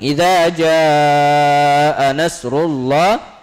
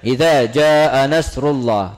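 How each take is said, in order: First: The vowel in jaa is stretched out long. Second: The vowel in jaa is held only briefly. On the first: The speaker calls it right. "harus dipanjangkan menjadi empat sampai enam harakat" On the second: The speaker calls it wrong. "Tidak cukup dengan baca"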